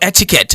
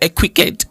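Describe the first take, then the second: First: The word is pronounced the standard way. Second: The word is pronounced in a local variant way.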